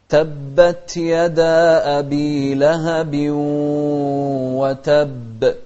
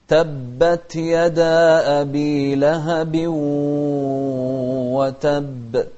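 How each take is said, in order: The two takes are said the same way.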